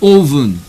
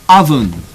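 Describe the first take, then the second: First: The first vowel differs from the one in cup. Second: The first vowel matches the one in cup. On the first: The speaker calls it wrong. "not oven" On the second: The speaker calls it right.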